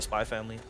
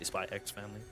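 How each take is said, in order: First: The middle X is left unspoken. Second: The middle X is spoken as a letter. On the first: This is how other people say the title. "people call it Spy Family" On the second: This is how the speaker insists on saying the title. "I say Spy X Family"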